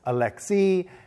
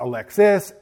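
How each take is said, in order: First: The name ends in a vowel, no s. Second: The name ends with an audible s sound. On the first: The speaker calls it right. "it's Alexi" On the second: The speaker calls it wrong. "it's not Alexis"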